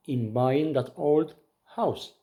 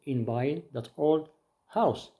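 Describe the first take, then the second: No difference in how they are said.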